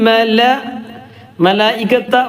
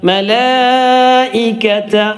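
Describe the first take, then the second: First: The vowel after the l is short. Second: The vowel after the l is lengthened. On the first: The speaker calls it wrong. "മതിയോ പോരാ" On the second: The speaker calls it right. "ഒരു മദ്ദിന്റെ ചിഹ്നമുണ്ട്. അപ്പം എങ്ങനെ നീട്ടാ"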